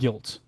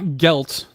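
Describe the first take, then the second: First: The vowel sounds like the one in 'bill'. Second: The vowel sounds like the one in 'bell'. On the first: The speaker calls it right. "but Guilt" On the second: The speaker calls it wrong. "not Gelt"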